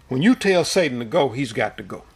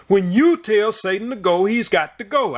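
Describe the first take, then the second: First: Firm, polite, measured command; stern but polite. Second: Booming command, pitched higher; forceful, thunderous declaration; thundering voice. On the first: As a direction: state it calmly, leaving no room for doubt. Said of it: "he said it sternly, politely, but sternly the first time". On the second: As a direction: let it roll like thunder. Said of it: "I heard the thunder in his voice". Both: Retold or imitated.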